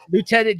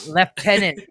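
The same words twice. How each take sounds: First: It has the American pronunciation, 'loo-tenant'. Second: It has the British pronunciation, 'lef-tenant'.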